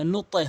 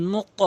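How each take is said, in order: First: নুতে with the bounce thinned to "e"; mistaken qalqalah. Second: নুক echoed as a rounded "nuto"; correct qalqalah. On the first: Teacher warning learners what not to say, নুতে with "e". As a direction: say নুতে ending in a wrong "e" echo. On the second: Teacher modelling the right form, নুক with upward bounce. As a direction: release নুক upward into a heavy "o". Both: Shown as a demonstration. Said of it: "নুতে হবে না".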